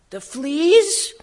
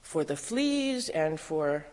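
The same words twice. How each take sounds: First: Very high, loud rising question; incredulous outburst. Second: Slow, unruffled prayer; serene. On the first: Woman interrupting her sister's thanks for fleas, incredulous outburst. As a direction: echo it in loud, squawking disbelief. Outraged echo of the serene thanks. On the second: Sister giving thanks even for fleas, slow and serene. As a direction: take your time, calmly giving thanks. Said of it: "Betsy went on serenely". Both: A narrator's reading.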